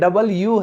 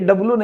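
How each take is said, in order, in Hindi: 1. यह पूरा 'double' और 'you' जोड़कर बोला जाता है। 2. यह छोटा करके दो-अक्षर वाला 'dublu' बोला जाता है। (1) "ये डबल यू है" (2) "ये डब्लू नहीं होता है"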